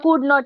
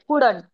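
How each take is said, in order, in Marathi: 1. हे दोन वेगळे, पूर्ण शब्द म्हणून म्हटलं जातं. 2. हे एकच आखूड केलेला शब्द म्हणून म्हटलं जातं. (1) "एक्सपांडेड फॉर्म" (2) "कॉन्ट्रॅक्टेड फॉर्म"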